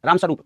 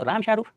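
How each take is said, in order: First: Said in the usual way. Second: Mock European accent, स्वरूप said as "shairoop"; विदेशी accent imitation. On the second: (यूरोपीय लहजे की नकल, स्वरूप को "शैरूप" बोलते हुए) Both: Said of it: "हमारे यहाँ के नाम उनको अजीब लगते हैं".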